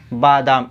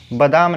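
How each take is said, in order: First: बादाम with long aa, baadaam; correct form. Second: बादाम with short first a, badam; wrong form. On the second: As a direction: say बादाम as bə-daam. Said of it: "बादाम नहीं". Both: Shown as a demonstration.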